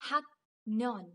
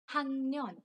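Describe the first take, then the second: First: The middle consonant is a 'k' sound. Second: The middle consonant is an 'ng' sound. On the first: "another word which is haknyon" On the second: "but together it is hangnon"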